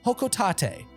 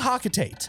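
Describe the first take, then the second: First: The first vowel sounds like 'oh'. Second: The first vowel sounds like 'ah'. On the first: This is the official pronunciation. "the official pronunciation is Hokotate" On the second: This is how it used to be said. "I used to say Hakotate"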